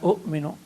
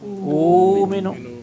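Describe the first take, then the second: First: A short vowel is followed by a glottal stop. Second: A long vowel is held, with no glottal stop. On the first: The speaker calls it wrong. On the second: The speaker calls it right. "But I believe is"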